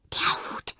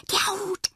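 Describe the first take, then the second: First: Breathless whisper of an eager discovery; excited whisper. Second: Far higher, bursting out of the whisper; can't keep it in any longer; excited. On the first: Fred whispers to Jana on spotting the hat, excited. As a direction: hiss it so only Jana hears. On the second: Fred repeats it to Jana, pitch leaping up, excited. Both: Acted. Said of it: "flüstert Fred aufgeregt".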